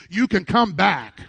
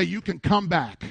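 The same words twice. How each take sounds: First: Firm, louder rallying call; emphatic, punched-out encouragement; like you mean it. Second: Said in the usual way. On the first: Shown as a demonstration. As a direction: say it with conviction to rouse the room. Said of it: "say it like you mean it". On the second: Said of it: "you didn't say it like you mean it".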